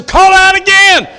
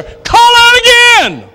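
First: Loud, much higher preaching cry; first of two rising calls, loud and high. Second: Slow, very high, stretched-out shouted call; the peak cry, slower and even higher; drawn-out shout. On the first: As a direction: fling the call out to the room. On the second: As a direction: hold every word like a final altar call. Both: Real, not acted. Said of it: "preaching climax repeat".

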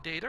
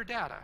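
First: "data" with a long a, as in date; first syllable of "data" rhymes with day. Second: "data" with a short a, as in dad; first syllable of "data" rhymes with hat. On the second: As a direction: say "data" as DAT-uh. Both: Shown as a demonstration. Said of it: "Do you call it data or data".

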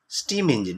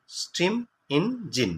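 First: Said in the usual way. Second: "স্টিম ইঞ্জিন" slowly as স্টিম, ইন, জিন; higher-pitched, slow sounding-out of "স্টিম ইঞ্জিন" with gaps; broken into three parts. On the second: Shown as a demonstration. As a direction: break "স্টিম ইঞ্জিন" into three separate beats. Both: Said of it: "তিনটে পার্টে ভাঙা হয়েছে".

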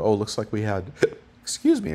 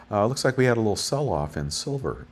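First: Interrupted by a hiccup; hiccuping mid-sentence. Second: Said in the usual way. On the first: Real, not acted. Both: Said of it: "I got the hiccups".

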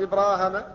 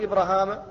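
First: إبراهام said ibraahem, long first a and short e at the end; last alif dropped. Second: إبراهام said ibrahaam, short first a and long second a; first alif dropped. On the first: Teacher showing the variant without the last alif, إبراهام as ibraahem. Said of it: "أو يحذف الأخير فقط فيقال". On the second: Teacher showing the variant without the first alif, إبراهام as ibrahaam. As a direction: clip the first vowel of إبراهام. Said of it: "أو يحذف الأول فقط فيقال". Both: Shown as a demonstration.

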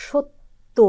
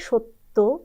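First: সত্য said as shottō with doubled t and final o; সত্য spoken shotto; demo pronunciation. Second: সত্য slow, doubled t, ending in o: shotto; সত্য pronounced slowly as shotto; correct pronunciation. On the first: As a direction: say সত্য as sho-tto. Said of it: "যেমন". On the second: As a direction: stretch out সত্য as sho-tto. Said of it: "বলতে হবে সত্য". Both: Shown as a demonstration.

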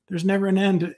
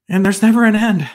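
First: Repeating the prophet's words to himself, deflated; mock dismay, echoed. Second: Higher and louder, mock-overwhelmed dismay at never an end; a preacher hamming up his own mock despair to the congregation. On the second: Stress on never in mock dismay. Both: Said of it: "I remember hearing that last, uh, sentence there and going".

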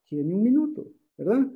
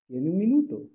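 First: Casual buddy tone. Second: Said in the usual way. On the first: Shown as a demonstration. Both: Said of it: "Así, entre cuates".

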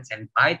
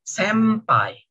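First: "senpai" with a distinct n before p; wrong reading with n. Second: "senpai" said slowly as "sempai"; n read as m. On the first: Teacher shows what not to say, n kept in "senpai". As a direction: keep the n in "senpai". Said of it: "bacanya bukan senpai". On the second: Teacher corrects anime fans, "senpai" said as "sempai". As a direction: close the lips on a long m in "senpai". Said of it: "tapi senpai". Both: Shown as a demonstration.

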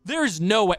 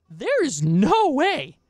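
First: A quicker, flatter there is no way. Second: Higher, slow there is no way; disbelief. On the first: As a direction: mutter it, shaking your head. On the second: Streamer rejecting the apology, slow and disbelieving. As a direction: stretch out the words in disbelief. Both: Real, not acted.

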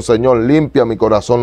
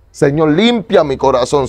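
First: Said in the usual way. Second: Slow, higher pleading to the Lord; pleading prayer. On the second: Retold or imitated. Retelling his prayer to the Lord, slow and pleading. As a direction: beg the Lord slowly, a little higher. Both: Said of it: "yo le oré al Señor".

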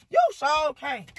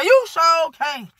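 First: Said in the usual way. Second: High, loud, slow mocking taunt; drawn-out teasing jab; gloating taunt. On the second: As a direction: rub it in his face slowly.

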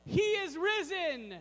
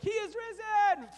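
First: Mild shout demo. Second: He is risen shouted higher, rising joy on risen; one man cheering alone; lone excited shout. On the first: Shown as a demonstration. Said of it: "where we shout out". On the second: Pretend. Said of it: "I was excited and I was like".

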